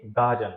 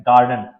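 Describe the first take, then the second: First: गार्डन as गाडन, no R; British garden. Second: गार्डन with a full R; American garden. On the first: Teacher giving the British गार्डन to students. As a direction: drop the R in गार्डन. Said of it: "हम पढ़ते हैं British में". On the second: Teacher giving the American गार्डन to students. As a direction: roll through the R in गार्डन. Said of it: "आर पूरा आपका आएगा". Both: Shown as a demonstration.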